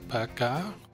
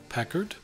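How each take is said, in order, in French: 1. Le nom se prononce à la française. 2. Le nom se prononce à l'anglaise.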